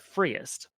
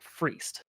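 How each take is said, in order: First: It is not said like the spelling 'freeced'. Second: It is said like the spelling 'freeced'. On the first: This is the name as intended. The speaker calls it right. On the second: Someone unfamiliar with the word said it. The speaker calls it wrong.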